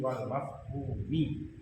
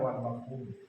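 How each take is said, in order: First: The last word ends with a final 'i' vowel. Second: The last word ends without a final vowel. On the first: The speaker calls it right. "tapi wal mafhumi" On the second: The speaker calls it wrong. "jangan dibaca wal mafhum"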